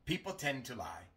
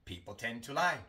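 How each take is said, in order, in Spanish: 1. La D al final de tend se omite. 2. La D al final de tend se omite.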